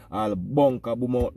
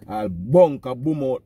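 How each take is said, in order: First: Said in the usual way. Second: Louder and slow, leaning on "bunker"; emphatic. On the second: Real, not acted. Repeating the warning to a rival so it sinks in, emphatic. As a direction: land each word of "All bunker boom out" hard.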